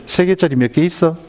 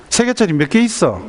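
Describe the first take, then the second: First: Lightly voiced mother, slightly raised pitch; patient first ask, only mildly acted; mother quizzing child. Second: High-pitched pressing mother; acted exasperated quizzing, pitch up; impatient repeated question. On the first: Mother teaching her child multiplication, lightly acted quizzing. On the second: Mother asking her silent child once more, high and impatient.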